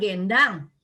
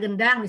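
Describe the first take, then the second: First: It is said in a Batak accent. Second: It is said in a standard Indonesian accent.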